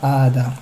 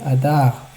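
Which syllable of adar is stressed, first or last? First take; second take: first; last. First: The stress is on the first syllable. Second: The stress is on the last syllable. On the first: The speaker calls it wrong. "et pas adar" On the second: The speaker calls it right. "Adar et millera. Donc c'est adar"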